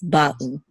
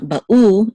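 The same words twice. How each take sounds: First: Ba'u stressed on ba; stress on first syllable. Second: Ba'u stressed on the final u; misplaced stress. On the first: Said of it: "this is where the accent". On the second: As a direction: push the second syllable of ba'u, the u, louder. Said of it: "It's not ba'u". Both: Shown as a demonstration.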